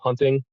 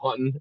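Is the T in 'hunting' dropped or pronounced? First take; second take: pronounced; dropped. First: The T sound in the middle is pronounced. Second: The T sound in the middle is dropped. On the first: This is the standard way to say it. "instead of hunting" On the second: This is how people say it locally. "around here, people call it hunting"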